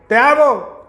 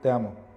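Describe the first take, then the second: First: It is said loudly. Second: It is said softly, in a small voice.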